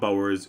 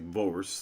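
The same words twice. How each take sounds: First: The first sound is a plain B. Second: The first sound blends a V and a B. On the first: This is the easier English way to say it. "we'll call them Boers. It's just easier" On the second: This is how it is said in Dutch. "in Dutch is more pronounced like Boers, like a V, like to combine like a V and a B sound together"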